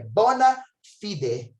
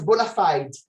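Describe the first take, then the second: First: It is pronounced the Latin way. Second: It is pronounced the English way. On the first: "a pronúncia correta em latim é bona fide" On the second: "Em inglês, fala-se bona fide"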